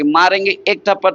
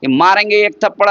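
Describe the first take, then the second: First: It is said in a mild, playful tone. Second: It is said in an angry, harsh tone. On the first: It is a gentle scolding of a child. "एक बच्चे को आप कहिएगा" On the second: It is a real threat to an equal. "गुस्से में आके"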